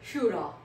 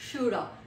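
First: 'Have' is reduced to a short 'a'. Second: The same.

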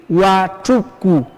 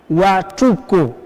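Both takes have the same delivery.

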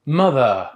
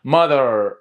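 First: It is said in a British accent, without r. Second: It is said in an American accent, with r.

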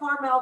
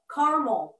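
First: It is said the way the California town is. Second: It is said the way the Indiana town is. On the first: It names the town in California. "There is a Carmel by the sea in California" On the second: It names the town in Indiana. "We're Carmel. Carmel, like Carmel by the corn"

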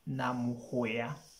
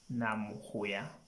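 First: The last consonant is a 'y' sound. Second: The last consonant is a 'y' sound.

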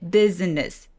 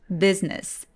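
First: The word is said with three syllables. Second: The word is said with two syllables. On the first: The speaker calls it wrong. "business, business 하면 뭔가 어색하죠" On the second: The speaker calls it right. "중간에 I 소리를 없애버리고 이음절로 소리 내볼게요"

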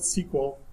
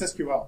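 First: It is said as one word, sequel. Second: It is said as three separate letters. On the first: The speaker calls it wrong. "Every time you say it, you sound like a doorknob" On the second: The speaker calls it right. "It means you pronounce the letters, not the word"

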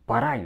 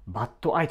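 First: The t becomes a flap linking both words. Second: The t is clear and the words are separate. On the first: "ラ行で繋がるんですよ" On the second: "but I とか絶対言わないんですよ"

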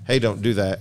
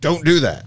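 First: It sounds like a friendly, caring warning. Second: It sounds like a harsh, angry command.

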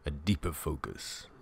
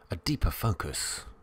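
First: It is said in a lowered, deep voice. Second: It is said in a normal speaking voice.

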